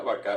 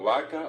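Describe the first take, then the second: First: "vaca" stressed on the last syllable, vacá; final stress. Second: Said in the usual way. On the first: Shown as a demonstration. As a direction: shift the stress of "vaca" to the end. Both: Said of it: "pasó el acento al final".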